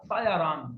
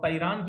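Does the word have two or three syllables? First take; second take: three; two. First: The word is said with three syllables. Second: The word is said with two syllables. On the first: The speaker calls it right. "तायारान यहां पर जबर" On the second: The speaker calls it wrong. "तैरान की जगह"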